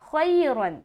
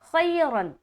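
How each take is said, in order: No difference in how they are said.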